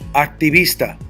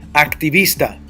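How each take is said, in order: First: The stress is on the syllable vis. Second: The stress is on the syllable vis.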